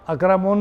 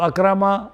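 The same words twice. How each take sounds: First: اکرمون ending in "-un"; wrong tanween ending. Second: Said in the usual way. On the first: Shown as a demonstration. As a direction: say اکرمون with a final n sound. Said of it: "نہیں پڑھیں گے". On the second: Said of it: "اکرمون نہیں پڑھیں گے".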